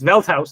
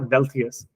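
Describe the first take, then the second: First: The name ends with a 'house' sound. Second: The name ends with an 'ius' sound. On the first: The speaker calls it right. "it's Velthaus" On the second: The speaker calls it wrong. "It's not Velthius"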